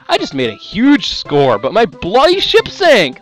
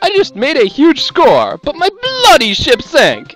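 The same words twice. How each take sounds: First: It is read in a plain, everyday accent. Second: It is read in a put-on British accent.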